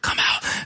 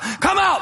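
First: The words are whispered quietly. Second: The words are shouted loudly. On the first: "We whisper" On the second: "They shout"

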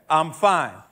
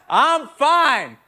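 First: It is said at a normal, quieter volume. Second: It is said much louder, almost shouted.

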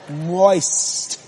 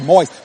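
First: The word is drawn out in a seductive voice. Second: The word is said plainly and flatly. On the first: This imitates how the commercial says it. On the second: This is not how the commercial says it.

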